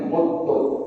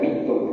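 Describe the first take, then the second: First: The first vowel is an 'u' sound. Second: The first vowel is an 'i' sound. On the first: The active-form reading: you die. "dengan domakan mim muttum" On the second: The passive-form reading: you are made to die. "dan kasrokan min mitum"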